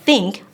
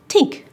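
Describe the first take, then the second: First: The word begins with a soft 'th' sound. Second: The word begins with a hard 't' sound. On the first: "instead of saying think" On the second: "I'll say tink"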